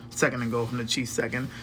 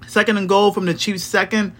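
First: Much softer and faster, under the breath; quick muttered repeat. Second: Said in the usual way. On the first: Real, not acted. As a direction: mutter it to yourself while checking. Rereads the stat line.

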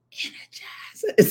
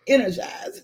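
First: Drawn-out whispered slogan; playful whisper. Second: Said in the usual way. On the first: Pretend. Getting viewers to say the lipstick name, playful whisper. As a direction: whisper it slowly like a teaser.

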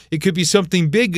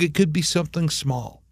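First: Brisk, with "big" lifted at the end; "big" said at fuller volume with a rising tune; stress on big. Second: Softer, with "small" falling away; "small" said quietly with a falling tune; small made small. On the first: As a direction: raise the pitch on "big" as the first of two options. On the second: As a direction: drop the volume and let "small" fall. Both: Shown as a demonstration. Contrasts big wins with small ones.

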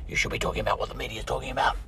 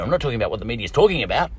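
First: Quick, softer nagging objector; mock critic. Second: Said in the usual way. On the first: Imagined critic scolding him about the media, quick and soft. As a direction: lightly voice a critic, hurried and softer.

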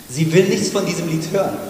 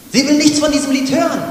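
First: Said in the usual way. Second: "Sie will nichts von diesem Lied hören" much higher and louder; loud emphatic repeat. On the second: Shown as a demonstration. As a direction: repeat it shouting the point.

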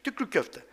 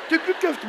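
First: Said in the usual way. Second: "Tükrük köfte" said higher through a laugh; amused, "Tükrük köfte" laughed out high. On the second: Real, not acted. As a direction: crack up on "Tükrük köfte", pitch jumping up. Repeats the phrase he keeps thinking of, laughing.

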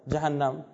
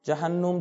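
First: جهنم said as jahannam, ending in -nam; final Arabic form. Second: جهنم said as jahannum, ending in -num like Hinnom; older form of the word. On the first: Lecturer finishes the sound shift for students, settled form. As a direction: land on today's form of جهنم, jahannam, with a doubled n. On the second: Lecturer shows how Hinnom drifted into the Arabic word, careful demo. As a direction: say جهنم as jahannum, close to the Hebrew root. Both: Shown as a demonstration. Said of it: "دره حنوم که بعداً شد جهنم".

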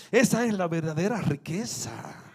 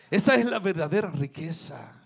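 No difference in how they are said.

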